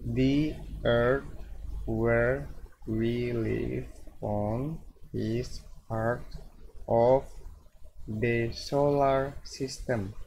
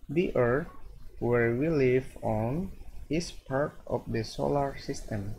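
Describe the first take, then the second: First: The sentence is read slowly. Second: The sentence is read quickly. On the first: "if we read it slowly" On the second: "now we try to read the sentence faster"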